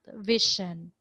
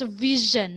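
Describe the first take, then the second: First: The middle consonant is not a zh sound. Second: The middle consonant is a voiced zh sound. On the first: The speaker calls it wrong. "not vision" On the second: The speaker calls it right. "That's vision"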